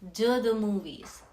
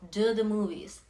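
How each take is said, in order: First: The words blend with a d-like sound. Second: The words blend with a d-like sound.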